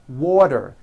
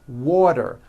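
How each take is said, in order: Both takes have the same delivery.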